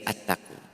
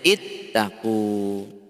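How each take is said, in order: First: The word begins with an a vowel. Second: The word begins with an i vowel. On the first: The speaker calls it wrong. "tidak mungkin dibaca attaqu" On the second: The speaker calls it right. "maka bacanya ittaqu"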